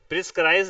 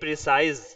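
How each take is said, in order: First: The middle has an added 'skr' sound. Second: The middle has a plain 's' sound. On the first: The speaker calls it wrong. "प्रिस्क्राइज नहीं" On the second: The speaker calls it right.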